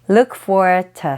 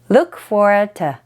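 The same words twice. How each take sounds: First: The last word is reduced to a short 't'. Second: The same.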